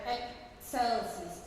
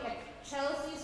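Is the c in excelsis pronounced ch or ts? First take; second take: ts; ch. First: The c is pronounced as a ts sound. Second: The c is pronounced as a ch sound. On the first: The speaker calls it right. "the C in the German Latin pronunciation is a T S sound" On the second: The speaker calls it wrong. "it will not be excelsis with a C H"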